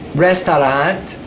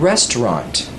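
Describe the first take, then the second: First: The word is said with a Thai accent. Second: The word is said in standard English. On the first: The speaker calls it wrong. "She was saying the word restaurant" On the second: The speaker calls it right. "instead of restaurant"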